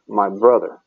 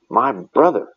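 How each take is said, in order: First: The stress falls on the word brother. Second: The stress falls on the word my. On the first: The focus is on the brother himself. "she puts "brother" last" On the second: The focus is on whose brother it was. "she puts the personal pronoun "my" at the end. She emphasizes, "my brother.""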